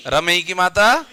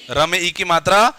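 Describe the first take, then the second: No difference in how they are said.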